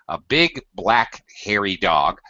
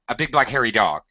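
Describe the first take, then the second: First: The phrase is said slowly, each word given time. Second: The phrase is said quickly, rushed together. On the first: The speaker calls it right. "we slow down pace when that happens" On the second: The speaker calls it wrong.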